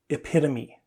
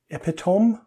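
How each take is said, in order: First: The word ends with a 'tuh-mee' sound. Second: The word ends with a 'tome' sound. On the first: The speaker calls it right. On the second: The speaker calls it wrong.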